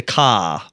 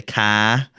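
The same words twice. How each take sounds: First: "ka" with a broad open ah, kah; South Shore ka. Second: "ka" with a flat a as in cat; "ka" with a short flat a; North Shore ka. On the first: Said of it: "South Shore accent is a little bit more pronounced". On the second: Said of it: "North Shore is a little more like Maine". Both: Shown as a demonstration.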